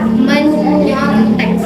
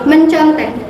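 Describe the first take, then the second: First: The word has an 'ny' sound after 'me'. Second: The word has an 'nc' sound after 'me'. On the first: The speaker calls it right. "Seharusnya itu ia menyontek" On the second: The speaker calls it wrong. "Itu salah ya teman-teman"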